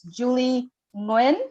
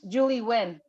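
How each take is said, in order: First: The surname is said with Vietnamese pronunciation. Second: The surname is said with English pronunciation. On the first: "the Vietnamese way of pronouncing it" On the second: "W E E or W I N works"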